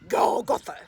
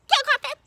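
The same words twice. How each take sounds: First: It is said in a deep daddy voice. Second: It is said in a mama voice.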